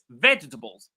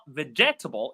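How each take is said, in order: First: The stress falls on the first syllable. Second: The stress falls on a later syllable. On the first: The speaker calls it right. "the ve takes all the power" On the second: The speaker calls it wrong. "the correct pronunciation is not vegetable"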